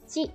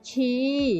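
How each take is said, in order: First: The vowel is short. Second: The vowel is held long. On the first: The speaker calls it wrong. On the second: The speaker calls it right. "tapi ci ya, panjang"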